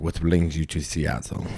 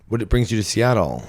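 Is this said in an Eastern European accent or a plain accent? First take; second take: Eastern European; plain. First: It is said with an Eastern European accent. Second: It is said in a plain, unaccented voice. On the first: The speaker calls it right. "He was like" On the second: The speaker calls it wrong. "He didn't say it like that"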